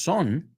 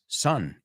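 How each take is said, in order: First: The vowel sounds different from the word sun. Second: The vowel sounds exactly like the word sun. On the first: The speaker calls it wrong. "it's not son" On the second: The speaker calls it right. "it's son, igual que el sol"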